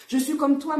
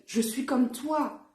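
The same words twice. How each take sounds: First: "je suis comme toi" higher and louder, pressing on "comme"; emphatic repeat. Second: Said in the usual way. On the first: Real, not acted. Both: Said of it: "repeated for emphasis".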